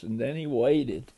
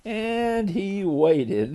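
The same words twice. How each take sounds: First: Said in the usual way. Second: Very slow, stretched and higher; drawn-out waiting. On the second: A narrator's reading. Storyteller tells how Gator waited for letters, drawn out. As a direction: draw the words out to show a long wait.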